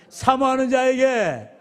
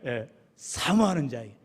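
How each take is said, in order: First: "사모하는" stretched out slowly, each syllable given weight; slow call-out. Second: Said in the usual way. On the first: Shown as a demonstration. Pastor has church repeat after him, "사모하는" said slowly and pressed. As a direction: pastor leads the congregation's repetition, "사모하는 자에게" drawn out slowly. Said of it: "같이 따라해볼까요". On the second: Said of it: "기다렸다는 듯이 마지막에".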